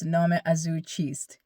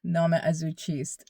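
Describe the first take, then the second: Both takes have the same delivery.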